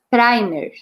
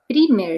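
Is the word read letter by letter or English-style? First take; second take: English-style; letter by letter. First: It is said with an English-style pronunciation. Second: It is read just as it is spelled. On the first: This is how the word is actually said. "Mas a gente lê primer" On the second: This is how the word is written. "Escreve primer"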